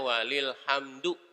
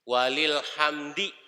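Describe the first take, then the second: First: The final vowel is an 'oo' sound. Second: The final vowel is an 'ee' sound. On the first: The speaker calls it wrong. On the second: The speaker calls it right.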